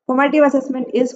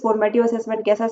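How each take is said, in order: First: Slow, louder, deliberate reading of the question; question read aloud. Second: Said in the usual way. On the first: Shown as a demonstration. Teacher reading the exam question to her students, slow and deliberate. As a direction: read the exam line out slowly for the class.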